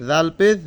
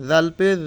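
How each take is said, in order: Both takes have the same delivery.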